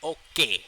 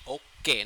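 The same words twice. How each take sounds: First: The word is pushed out with force. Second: The word is said softly without force. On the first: The speaker calls it right. "stress them a little bit, you know. Like okay" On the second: The speaker calls it wrong. "not okay"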